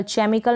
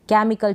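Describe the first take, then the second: First: केमिकल misread with a "ch" as in chair; wrong pronunciation with CH. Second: केमिकल opening on a hard "k"; correct silent-H pronunciation. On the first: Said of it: "केमिकल ना पढ़ें". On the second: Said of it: "सी के बाद में एच silent है". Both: Shown as a demonstration.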